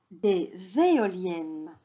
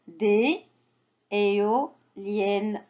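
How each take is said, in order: First: Des éoliennes joined by a z, dé-zéoliennes; liaison. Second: Des, pause, éoliennes slowly in pieces, no z; sounded out. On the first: Teacher shows how it is read, with liaison. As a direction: link des to éoliennes slowly with a z sound. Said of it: "Et on fait la liaison". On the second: Teacher models reading for children, slow syllable by syllable. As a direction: break éoliennes up, final ne apart. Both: Shown as a demonstration.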